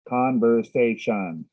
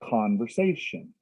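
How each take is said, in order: First: The stress sounds odd and evenly spread. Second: The stress sounds natural and normal. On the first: The speaker calls it wrong. "they made the stress a little strange" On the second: The speaker calls it right. "Make it more natural"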